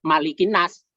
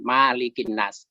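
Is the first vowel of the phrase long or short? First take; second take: short; long. First: The first vowel is held short. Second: The first vowel is held long. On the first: "yang umum, itu yang jamak" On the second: "banyak yang membaca dipanjangkan"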